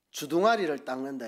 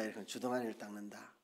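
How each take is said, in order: First: Said in the usual way. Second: 주둥아리를 said low and much softer; soft aside repeat. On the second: Shown as a demonstration. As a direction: drop the voice on 주둥아리를 닦는다. (낮고 조용하게 주둥아리를 닦는다)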